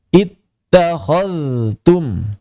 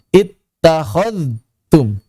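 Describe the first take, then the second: First: The dh sound flows clearly before the t. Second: The dh sound merges into a doubled t. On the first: The speaker calls it right. "Yang tepat dzalnya dialirkan" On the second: The speaker calls it wrong. "dzalnya sedikit masuk ke ta-nya bertasydid ... Tidak tepat"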